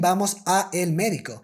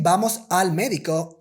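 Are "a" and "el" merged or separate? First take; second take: separate; merged. First: The words a and el stay separate. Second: The words a and el merge into al. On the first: The speaker calls it wrong. "we are not saying vamos a el médico" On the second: The speaker calls it right. "We are saying vamos al médico"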